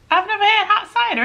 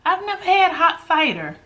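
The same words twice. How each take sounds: First: "I've never had hot cider" lifted higher, amazed at herself; surprised. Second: Said in the usual way. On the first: Real, not acted. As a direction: say "never had" like it just dawned on you. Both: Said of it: "Isn't that weird?".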